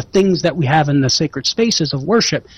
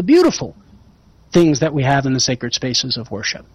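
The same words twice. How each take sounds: First: Said in the usual way. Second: "beautiful" picked out, then a brief pause; stress on beautiful. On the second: Real, not acted. Host refines his point to the caller, stress on "beautiful". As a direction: lean on "beautiful", let the rest drop. But also the.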